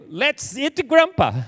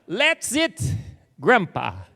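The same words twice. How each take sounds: First: There is no pause before Grandpa. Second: There is a pause before Grandpa.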